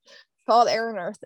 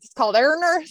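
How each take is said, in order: First: Said in the usual way. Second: It's called Air and Earth, every word distinct and raised; careful clear pronunciation. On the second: Shown as a demonstration. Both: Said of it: "my Southern accent".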